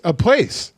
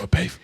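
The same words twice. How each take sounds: First: Said in the usual way. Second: "place" said as "pafe", ending in F; accented pronunciation. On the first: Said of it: "nobody says it like that". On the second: Shown as a demonstration. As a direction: swap the S of "place" for an F. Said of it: "Is that not how they say".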